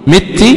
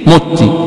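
First: The first vowel is an 'i' sound. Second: The first vowel is a 'u' sound. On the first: "بكسر الميم" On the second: "بضم الميم"

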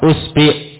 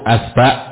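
First: The first vowel is u, the second i. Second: Both vowels are a.

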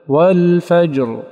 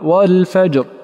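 First: The final r is voiced and held fully. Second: The final r is voiced but clipped short. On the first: The speaker calls it right. "والأكمل" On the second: The speaker calls it wrong. "أنقص رخاوتها وأنقص زمنها"

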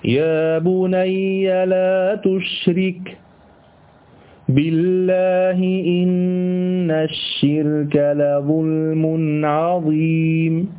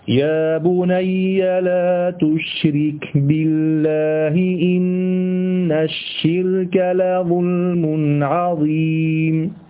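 First: A pause comes right after 'la tushrik'. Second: No pause comes after 'la tushrik'. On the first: 'By God' becomes an oath opening the next clause. "نعم وقف، لكن اتهم معنى جديد" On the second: It forbids associating partners with God. "هقرأ لكم آية واحدة بطريقتين"

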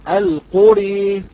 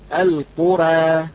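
First: The final vowel leans fully toward e. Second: The final vowel is between a and e. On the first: "الإمالة الكبرى التي يقرأها حمزة والكسائي" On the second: "كيف يقرأ ورش كلمة القرى"

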